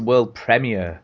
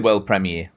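First: Premiere is said with a non-American pronunciation. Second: Premiere is said with an American pronunciation. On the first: The speaker calls it right. "You made me say it wrong. It's a world premiere" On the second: The speaker calls it wrong. "You made me say it wrong then because of the American pronunciation"

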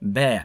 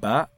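First: The vowel sounds like the one in 'bear'. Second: The vowel sounds like the one in 'bar'. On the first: The speaker calls it right. "Okay, Willy Bear" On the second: The speaker calls it wrong. "So I say Willy Barr. Have I done that right?"

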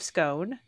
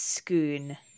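First: The word is said with an American pronunciation. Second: The word is said with a Scottish Gaelic pronunciation. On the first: "The American pronunciation is just straight up Stone of Scone" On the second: "but Scottish Gaelic, it's Scone"

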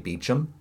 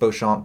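First: The name is said the way English people say it. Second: The name is said with a French-style pronunciation.

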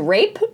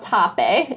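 First: The word begins with an r sound. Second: The word begins with an h sound. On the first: The speaker calls it wrong. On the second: The speaker calls it right. "but it is pronounced Hape"

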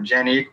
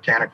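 First: The name begins with a soft J-like sound. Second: The name begins with a hard K sound. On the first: This is the original pronunciation of the name. "It's actually pronounced Janik" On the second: This is the Americanized pronunciation of the name. "since we're in America and it flows better"

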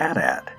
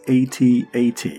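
First: It is said as one word, at-at. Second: It is said as separate letters, A-T-A-T. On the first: This is the older way, from the toy commercials. The speaker calls it wrong. "old geezers like myself still cling to AT-AT" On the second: This is the currently accepted name. The speaker calls it right. "the proper pronunciation is AT-AT"

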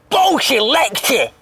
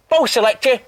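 First: It is said in an angry way. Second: It is said in a neutral way.

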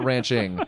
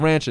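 First: The word ends in a full 'ing' sound. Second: The word ends in a clipped 'in' sound. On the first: The speaker calls it wrong. "not ranching" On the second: The speaker calls it right. "just as ranching, With an apostrophe at the end"

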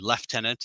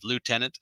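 First: It is said the British way, like leftenant. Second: It is said the American way, like lootenant. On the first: The speaker calls it wrong. "That's how the British pronounce that. And the Canadians too, lieutenant" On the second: The speaker calls it right. "instead of lieutenant. The American pronunciation makes a lot more sense"

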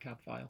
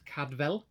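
First: The middle consonant is an F sound. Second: The middle consonant is a V sound. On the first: This is how most people say the name. "most people I know, and I think most people in the TV show as well, pronounced it Cadfael" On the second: This is how the author intended the name. "the author originally intended the name to be pronounced Cadvel"

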